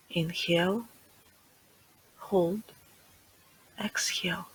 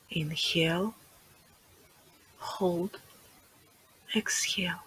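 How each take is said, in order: Both takes have the same delivery.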